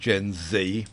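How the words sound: It is said with an American pronunciation. The speaker calls it wrong. "not Gen Z, for goodness sake"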